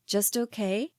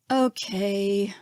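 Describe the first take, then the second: First: A disbelieving "Just okay?", rising on "okay"; doubting. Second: Dejected. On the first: Narrator doubting Caesar's answer, disbelieving rise. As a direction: question his "okay", unconvinced. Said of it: "not believing him". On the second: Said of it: "sounding completely dejected". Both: A narrator's reading.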